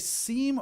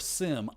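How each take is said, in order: First: The vowel is a long ee sound. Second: The vowel is a short i sound. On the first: "I say seam because I E tends to be like in believe" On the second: "a lot of people uh, pronounce it as sim"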